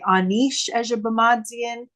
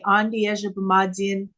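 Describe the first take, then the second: First: The first word sounds like aneesh. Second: The first word sounds like andi. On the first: This is how some other speakers say it. "Some people say" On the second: This is how speakers in this area say it. "Up here, we would say"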